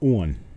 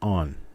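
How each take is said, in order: First: The word has a regional upland vowel. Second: The word has a standard general vowel. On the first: "the uplanders match uh, Virginia, Washington, D C ... in pronouncing it as on" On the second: "My grandmother said it pretty much normally, as on"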